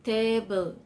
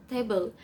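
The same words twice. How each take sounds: First: "Table" stretched into two beats, TA-BLE; syllable by syllable. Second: Said in the usual way. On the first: Shown as a demonstration. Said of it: "two syllables". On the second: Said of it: "some with table".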